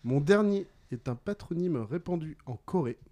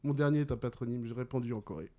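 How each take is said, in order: First: Deliberate, phrase-by-phrase clue; measured riddle reading. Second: Quick, lower-key rereading; brisk recap. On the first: Quizmaster gives players the last clue, deliberately. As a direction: let each part of the clue land. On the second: Quizmaster repeats the last clue to players, briskly. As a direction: run through the clue without pausing. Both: Real, not acted.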